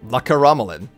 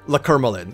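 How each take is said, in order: First: Every syllable of the name is fully said. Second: The name is said with a syllable dropped. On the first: The speaker calls it right. "a completely full pronunciation" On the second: The speaker calls it wrong. "it's just easier for me"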